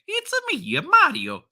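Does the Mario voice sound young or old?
young. It is the classic youthful Mario voice.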